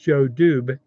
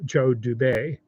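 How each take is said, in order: First: The name ends without a French 'ay' vowel. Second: The name ends with a French 'ay' vowel. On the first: "I don't see an accent aigu after the E for French, so I assume it's"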